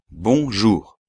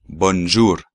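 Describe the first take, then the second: First: Bonjour with nasal bon, no n; French bonjour, nasal vowel; right bonjour. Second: Bonjour with n and r pronounced; wrong bonjour. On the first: Teacher models the correct bonjour. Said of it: "Hay que decir bon". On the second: Teacher shows the wrong bonjour to students. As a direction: bonjour said Spanish style. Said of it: "no hay que decir sobre todo bonjour". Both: Shown as a demonstration.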